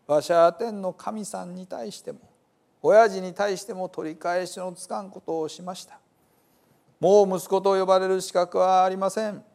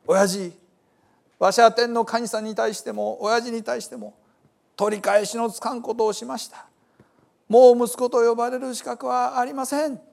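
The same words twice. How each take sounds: First: Rehearsed confession, slightly raised pitch; a measured, understated confession practised to oneself; lightly voiced repentant son. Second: High, raised-voice confession to a father; repentant son pleading. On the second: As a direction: cry out the confession, pitched well up. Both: A narrator's reading.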